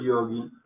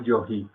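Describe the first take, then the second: First: "yogi" with a hard g, as in "gato". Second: "yogi" read as "yoji", g like a Spanish jota. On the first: Teacher explaining transliteration to Spanish speakers, hard g in yogi. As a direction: say "yogi" with a stopped g sound. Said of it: "no diríamos yogi". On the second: Teacher showing a misreading from spelling, jota sound in yogi. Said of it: "ahí la G suena como G". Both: Shown as a demonstration.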